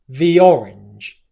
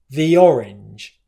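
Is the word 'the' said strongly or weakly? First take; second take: weakly; weakly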